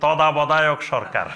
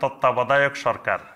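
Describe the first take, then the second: First: It is said with a foreign-accented pronunciation. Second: It is said with a native Bengali pronunciation. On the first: This is how foreign learners say it. The speaker calls it wrong. "তারা বলে কি" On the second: This is how native speakers say it. The speaker calls it right. "আমরা বলি না"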